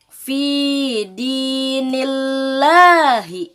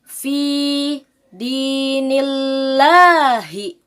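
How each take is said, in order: Both takes have the same delivery.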